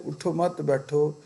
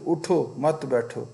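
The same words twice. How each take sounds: First: "اٹھو مت" run on with no stop, rise on "مت", then "بیٹھو"; "اٹھو مت" run on, rising on "مت"; run together. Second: "اٹھو" set apart with a clear stop before "مت بیٹھو"; a clear break after "اٹھو"; pause after uthho. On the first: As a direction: join "اٹھو مت" without a break. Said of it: "ٹھہرا نہ جائے تو". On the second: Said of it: "کسی کو یہ کہنا ہو کہ". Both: Shown as a demonstration.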